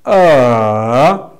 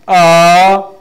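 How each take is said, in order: First: It is said with a falling-rising tone. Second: It is said with the second tone. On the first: "that fall and rising tone" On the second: "Second, we say ah"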